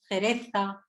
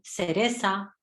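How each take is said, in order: First: The c and z are th sounds. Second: The c and z are s sounds. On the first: "en lugar de decir" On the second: "lo hacen como si fuese una S"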